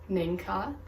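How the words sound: The name is said with English sounds. "the English pronunciation of my name"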